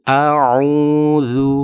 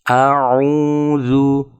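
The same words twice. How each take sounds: No difference in how they are said.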